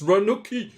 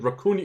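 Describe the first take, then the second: First: The second consonant is n, the third k. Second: The second consonant is k, the third n. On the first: The speaker calls it right. "It's Ranuki" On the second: The speaker calls it wrong. "I'm calling it Rakuni"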